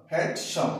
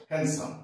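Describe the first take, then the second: First: হ্যান্ডসাম broken in two with a hard stop before -sam; wrong, doubled sound. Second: হ্যান্ডসাম pronounced smoothly as hen-sam; correct silent D. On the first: Teacher demonstrates a faulty reading, হ্যান্ডসাম broken into two parts. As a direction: split হ্যান্ডসাম into two heavy halves. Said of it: "double হয়ে গেছে". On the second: Teacher gives the corrected word, হ্যান্ডসাম as hen-sam. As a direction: drop the D in হ্যান্ডসাম. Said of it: "তাহলে এটাকে আমরা বলবো". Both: Shown as a demonstration.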